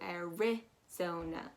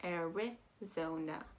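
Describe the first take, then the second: Both takes have the same delivery.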